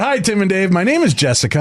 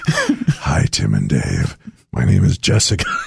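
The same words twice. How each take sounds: First: It is said in a plain normal voice. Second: It is said in a creepy put-on voice.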